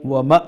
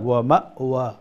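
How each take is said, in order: First: The word is said without a glottal stop. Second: The word is said with a glottal stop. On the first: The speaker calls it wrong. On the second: The speaker calls it right.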